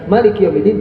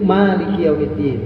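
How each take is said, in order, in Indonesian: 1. Vokal pertama dari maliki pendek. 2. Vokal pertama dari maliki panjang. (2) "sepuluh itu"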